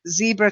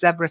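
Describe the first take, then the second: First: It is said with an American pronunciation. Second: It is said with a British pronunciation. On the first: "Zebra tends to be American English" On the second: "Zebra tends to be British English"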